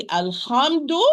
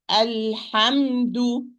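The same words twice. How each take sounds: First: Alhamdu said with a throaty ha, moved too far forward or down; the mistaken ha in alhamdu; wrong ha. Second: Alhamdu with a breathy ha from the middle of the throat, slow; correct ha. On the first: Teacher showing students the wrong ha in alhamdu. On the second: Teacher showing students the right ha in alhamdu. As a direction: stretch alhamdu with a clear, airy ha. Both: Shown as a demonstration. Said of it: "I don't say alhamdu".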